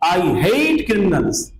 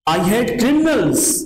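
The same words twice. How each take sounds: First: The stress falls on the word hate. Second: The stress falls on the word criminals. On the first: "ये जोर किस पर है? हेट पर है।" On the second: "जोर ऑब्जेक्ट पर है।"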